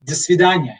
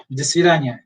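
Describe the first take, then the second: First: До свидания as "da svi-DA-nya", stress on DA; Russian do svidaniya. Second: До свидания again, "da svi-DA-nya"; Russian repeat. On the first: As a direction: model До свидания. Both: Shown as a demonstration.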